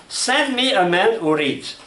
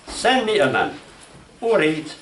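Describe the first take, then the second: First: "Send me a man who reads" as one slow high run; no pause before "who". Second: "Send me a man", full stop, then "who reads"; high "Send me a man", pause, separate "who reads"; pause after "man". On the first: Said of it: "Or punctuation. Example". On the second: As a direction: break after "man" and let each part fall. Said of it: "So you put the punctuation". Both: Shown as a demonstration.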